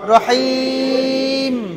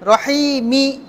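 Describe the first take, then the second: First: The word ends without its final vowel. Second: The word keeps its final vowel ending. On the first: The reader stops on this word. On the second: The reader continues without stopping.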